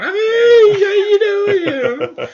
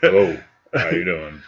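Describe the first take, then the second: First: It is said in a higher, boyish voice. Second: It is said in a deep, grown-up voice.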